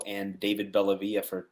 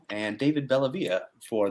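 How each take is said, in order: First: It is said in an ordinary conversational voice. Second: It is said in a put-on radio-announcer voice.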